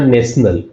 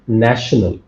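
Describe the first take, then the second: First: The ending is said with an s sound. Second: The ending is said with a sh sound. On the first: The speaker calls it wrong. "it's not national" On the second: The speaker calls it right. "it's national"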